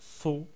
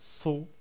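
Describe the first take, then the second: First: The vowel sounds like an open o. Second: The vowel sounds like an open o.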